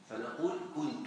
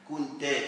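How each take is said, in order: First: The word ends with the vowel u. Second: The word ends with the vowel a. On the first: The speaker refers to themself. "ان كانت للمتكلم فهي مبنيه على الضم" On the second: A male listener is addressed. "وإن كانت المخاطب مبنية على الفتح"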